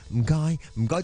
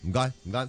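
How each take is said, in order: First: It is said warmly, with sincere feeling. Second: It is said flatly, with no expression. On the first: The thanks are heartfelt. The speaker calls it right. "即系好诚意咁样啦" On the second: The thanks are automatic and not heartfelt. The speaker calls it wrong. "即系嗰边冇晒语气啊"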